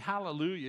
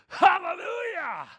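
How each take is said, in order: First: It is said plainly and quietly. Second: It is shouted with loud energy.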